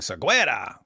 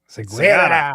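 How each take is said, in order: First: The name is said as Seguera. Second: The name is said as Sagara. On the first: The speaker calls it wrong. "We were pronouncing it wrong when we were saying Seguera" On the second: The speaker calls it right. "It's Sagara"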